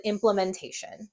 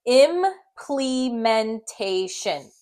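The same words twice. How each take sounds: First: Implementation run together with a lazy schwa, "im-pluh-men-tation"; said quickly. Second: Implementation very slow, syllable by syllable, with a full "plee"; sounded out. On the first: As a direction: say implementation at natural speed, middle vowel reduced. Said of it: "when you say it quickly". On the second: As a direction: stretch Implementation part by part. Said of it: "I'm gonna blend it". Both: Shown as a demonstration.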